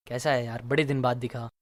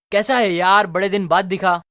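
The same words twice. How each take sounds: First: Low, soft, emotional greeting. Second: Excited greeting, hit louder at the start. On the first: Friend meeting you after many days, emotional. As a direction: drop low and quiet, full of feeling. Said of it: "emotional tone में बोले". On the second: Friend greeting you after many days, excited. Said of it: "excited tone में पूछ रहा है". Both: Shown as a demonstration.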